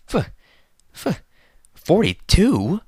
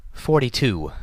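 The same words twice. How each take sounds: First: "F-, f-, forty-two?" stuttered, then a much higher, louder, slow rising question; horrified disbelief, stumbling on the number; stammering in shock. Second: A lightly voiced lady announcing, higher; Rarity announcing. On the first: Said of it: "his eyes widening in shock". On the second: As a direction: say "Forty-two" as a poised, higher announcement. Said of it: "Rarity announced". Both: A narrator's reading.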